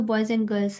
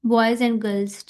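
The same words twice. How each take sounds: First: Put-on boys and girls run together in one breath; natural connected boys and girls, no gaps between words; connected flow. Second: Each word said separately and very slowly; slow careful citation of boys and girls. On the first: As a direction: boys and girls linked, the and reduced to a quick n. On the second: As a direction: boys and girls pulled apart, word by word, with a full and. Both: Shown as a demonstration. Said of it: "हम लोग इसको एक flow में बोलते हैं ना".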